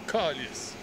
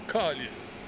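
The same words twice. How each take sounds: First: It uses a Quebec French pronunciation. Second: It uses a Quebec French pronunciation.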